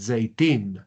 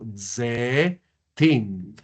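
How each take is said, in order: First: The first vowel glides into a y sound. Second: The first vowel is a plain e sound. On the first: This is how modern speakers usually say it. "En hebreo moderno se lograría escuchar la yod" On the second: This follows classical pronunciation rules. "para decir olivos en hebreo, yo digo zetim"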